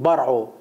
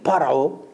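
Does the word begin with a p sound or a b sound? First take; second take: b sound; p sound. First: The word begins with a b sound. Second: The word begins with a p sound. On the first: The speaker calls it wrong. "הוא יגיד ברעו" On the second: The speaker calls it right. "תגיד פרעו"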